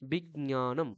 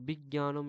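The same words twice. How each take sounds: First: A light j and a light ñ are both sounded. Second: The j and ñ are not both clearly sounded. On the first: The speaker calls it right. "উচ্চারণটা এরকম হয়" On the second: The speaker calls it wrong. "এরকম বলে না কিন্তু। ঠিক আছে? যারা বলে সেটা ভুল।"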